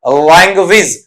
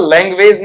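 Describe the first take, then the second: First: लैंग्वेज as "lang-wiz", short final vowel; corrected pronunciation. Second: लैंग्वेज as "leng-wayz", long last vowel; common mispronunciation. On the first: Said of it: "बल्कि इसे क्या पढ़ेंगे आपका?". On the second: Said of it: "लैंग्वेज नहीं बल्कि इसे क्या पढ़ेंगे". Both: Shown as a demonstration.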